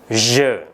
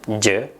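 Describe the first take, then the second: First: The word has the standard French pronunciation. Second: The word has an Indonesian-style mispronunciation. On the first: The speaker calls it right. "Pengucapan yang tepat adalah je" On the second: The speaker calls it wrong. "ini pengucapan-pengucapan yang kurang tepat"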